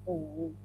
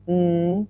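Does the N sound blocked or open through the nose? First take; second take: blocked; open. First: The sound is barely audible with the nose blocked. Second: The sound flows freely through an open nose. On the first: "plug your nose, mm, and you can barely make the sound" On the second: "N is mm"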